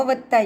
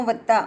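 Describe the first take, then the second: No difference in how they are said.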